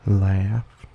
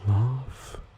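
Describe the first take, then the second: First: The vowel is a flat 'a' as in trap. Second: The vowel is a broad, open 'ah' sound. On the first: "without the trap-bath split" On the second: "with the trap-bath split"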